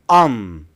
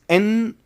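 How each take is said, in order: First: The word is reduced to sound like 'on'. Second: The word is reduced to sound like 'in'. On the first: "or on" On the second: "becomes in"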